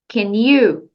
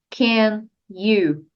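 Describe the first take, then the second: First: The two words are linked together. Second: The two words are said separately. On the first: The speaker calls it right. "junte can com you" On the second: The speaker calls it wrong. "Não diga apenas can you"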